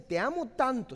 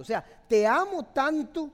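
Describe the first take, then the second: First: Said in the usual way. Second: "te amo tanto" pushed louder and higher, hitting amo; louder emphatic. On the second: Shown as a demonstration. Pastor modelling a man's words to his girlfriend, louder. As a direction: say "te amo tanto" again with much more force, amo stressed. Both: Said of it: "ustedes deberían de decir".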